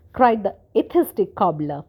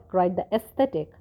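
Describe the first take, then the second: First: Atheistic said carefully, a bit louder; corrected reading. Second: Said in the usual way. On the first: Shown as a demonstration. The reader corrects the misread word, carefully stressed. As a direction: fix the slip, landing on atheistic.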